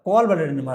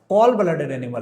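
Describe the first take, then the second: First: कॉल stressed for students to copy; drilled repeat. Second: Said in the usual way. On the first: Shown as a demonstration. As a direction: repeat कॉल blooded animal as the answer to be learned. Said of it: "कैसा blooded animal है बालक?". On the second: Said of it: "teacher drills the term".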